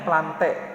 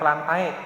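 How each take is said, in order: First: The ending is said as a single e. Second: The ending is said as two vowels, a-e. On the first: The speaker calls it right. "dibacanya plante" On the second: The speaker calls it wrong. "bukan plantae"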